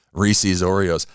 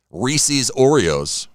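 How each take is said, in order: First: Said in the usual way. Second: Stretched slowly, savoring each word; slow drawn-out. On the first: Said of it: "repeats snack name after tasting". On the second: Shown as a demonstration. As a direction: drag out Reese's Oreos slowly. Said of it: "savoring the new snack name".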